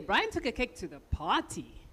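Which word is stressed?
party. The word party carries the main stress. It was taken to the party, not somewhere else. "the important information is the party"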